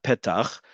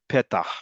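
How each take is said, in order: First: The word ends in a raspy ch sound. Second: The word ends in an h sound. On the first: "not petach" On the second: "would still pronounce it as het. So it'd be petah"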